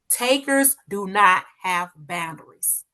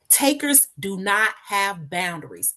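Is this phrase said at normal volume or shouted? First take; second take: shouted; normal. First: It is shouted loudly with strong force. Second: It is said at a normal speaking volume.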